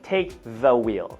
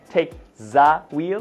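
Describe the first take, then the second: First: The word 'the' starts with a th sound. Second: The word 'the' starts with a z sound. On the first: The speaker calls it right. "it's a T H sound" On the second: The speaker calls it wrong.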